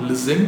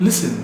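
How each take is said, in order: First: Listen with a full second vowel, rising; mispronounced listen. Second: Listen as LIS-n, falling; correct pronunciation. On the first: Teacher showing what to avoid, mispronounced. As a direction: say listen as lis-SEN. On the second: Teacher correcting the word, correct pronunciation. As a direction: say Listen with a light second syllable. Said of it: "Not listen". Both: Shown as a demonstration.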